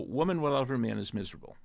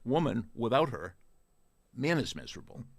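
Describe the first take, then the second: First: Pauses fall after 'woman' and after 'man'. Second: A pause falls after 'her', before 'man'. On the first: The woman is miserable without the man. "just by using a couple of commas" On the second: The man is miserable without the woman. "how could you make the man miserable just by pausing?"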